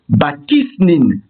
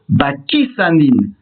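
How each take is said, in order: First: It begins with 'ba' and ends with 'snin'. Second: It begins with 'ba' and ends with 'sanin'. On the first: "avec l'article défini" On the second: "avec un article défini et un qamas sous le samer"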